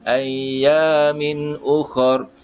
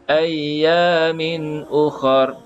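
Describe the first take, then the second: The two takes are said the same way.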